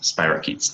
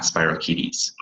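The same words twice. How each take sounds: First: "spirochetes" said the accepted way, ending in one syllable "keets"; correct pronunciation. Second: "spirochetes" misread slowly with an extra final syllable, "spiro-kee-tees"; wrong pronunciation. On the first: Pharmacy student showing webinar viewers how to say "spirochetes", correct pronunciation. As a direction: say "spirochetes" plainly, rhyming the end with "sheets". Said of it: "Yes, it is pronounced". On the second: Pharmacy student warning webinar viewers off misreading "spirochetes", wrong pronunciation. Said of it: "not spirochetes". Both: Shown as a demonstration.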